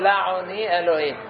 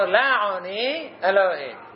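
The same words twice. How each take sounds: First: The two words run together without a pause. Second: There is a pause between the two words. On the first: The speaker calls it wrong. "לא אומרים" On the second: The speaker calls it right. "ככה אומרים... הם מפסיקים"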